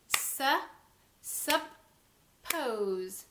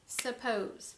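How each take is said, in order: First: SUPPOSE split in two, sup ... pose; slow, separated sup - pose; clapped syllables. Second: Said in the usual way. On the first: Shown as a demonstration. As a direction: say suppose syllable by syllable with a clear gap. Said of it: "when we clap that out". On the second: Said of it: "when we clap that out, we would say".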